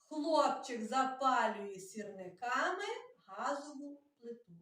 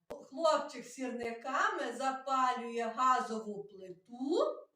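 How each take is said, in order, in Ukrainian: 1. Тут звичайна розповідна інтонація. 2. Тут питальна інтонація, з піком на плиту.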